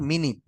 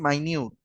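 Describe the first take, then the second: First: The first syllable sounds like 'min', then 'it'. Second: The first syllable sounds like 'my', then 'newt'. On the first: "এটার উচ্চারণ কিন্তু আবার মিনিট" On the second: "এটার আমি উচ্চারণও করতেছি মাইনিউট"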